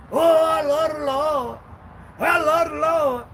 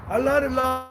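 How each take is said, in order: First: Higher, slow sing-song mockery of a churchgoer; hammed-up holy voice; mock pious churchgoer. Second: Said in the usual way. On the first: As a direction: drag it out high like a phony saint. Mocking churchgoers' claim.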